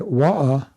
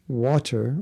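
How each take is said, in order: First: The word is said in a local English accent. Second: The word is said with a standard pronunciation. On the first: "if you're in a certain street of England, you would say wa'a" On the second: "the English pronunciation is water"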